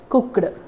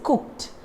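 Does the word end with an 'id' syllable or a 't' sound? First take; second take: id syllable; t sound. First: The ending is said as an extra 'id' syllable. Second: The ending is said as a short 't' sound. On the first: The speaker calls it wrong. "They say they use the word id" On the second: The speaker calls it right. "Just change that ed sound as t sound"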